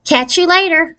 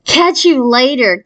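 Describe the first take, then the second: First: High squeaky sign-off, pleased with himself; lightly voiced nerdy boy saying goodbye; squeaky nerd. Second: Slow mock copy of the boy's sign-off; mocking shriek. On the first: Boy ending the phone call, high and squeaky. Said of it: "He has a really squeaky voice". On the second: Girls mocking the boy's goodbye, teasing shriek. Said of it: "Kate, Patty, and I shrieked". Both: A narrator's reading.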